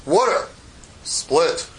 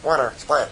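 First: Lightly voiced God, word by word; God giving a two-word order, pause between; God's commanding voice. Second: Lightly voiced, offhand and low; casual God voice. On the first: God orders the sea to part, lightly voiced commanding voice. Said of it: "I guess that's the way he talks". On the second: Shown as a demonstration. Teacher shows how God would not talk, casual delivery. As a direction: throw the command away, no pause. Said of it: "I don't think he goes like".

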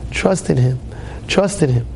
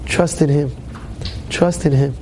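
Both takes have the same delivery.

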